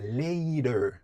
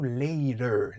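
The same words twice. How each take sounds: No difference in how they are said.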